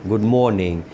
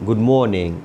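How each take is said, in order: No difference in how they are said.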